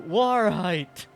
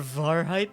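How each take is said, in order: First: The word begins with a W sound. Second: The word begins with a V sound. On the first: The speaker calls it right. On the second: The speaker calls it wrong.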